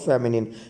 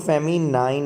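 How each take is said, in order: First: The last syllable sounds like 'nin'. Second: The last syllable sounds like 'nine'. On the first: The speaker calls it right. "Right pronunciation इसका क्या है?" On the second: The speaker calls it wrong. "इसको फेमिनाइन नहीं पढ़ते"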